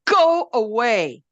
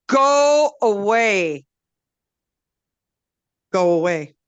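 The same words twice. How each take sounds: First: Slow, loud, higher growl; grumpy tree. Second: Very slow, loud, higher growl; grumpy tree. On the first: Blackberry refusing Wolf's help, slow loud growl. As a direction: drag the words out to push him away. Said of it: "And he said". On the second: Blackberry rejecting the medicine, slow loud growl. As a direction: stretch out the refusal heavily. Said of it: "And Blackberry said". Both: A narrator's reading.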